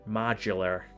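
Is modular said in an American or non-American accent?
American. It is said in an American accent. "What's an American way of saying modular?"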